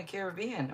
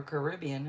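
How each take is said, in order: First: "Caribbean" said CARE-uh-BEE-an, stress on first and third syllables; care-uh-bee-an pronunciation. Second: "Caribbean" said cuh-RIB-ee-an, stress on second syllable; cuh-rib-ee-an pronunciation. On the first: Reading out a viewer's home, says "Caribbean" CARE-uh-BEE-an. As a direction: say "Caribbean" as KEH-ruh-BEE-un. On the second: Offering the viewer the other way, "Caribbean" as cuh-RIB-ee-an. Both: Shown as a demonstration. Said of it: "however you like to say it".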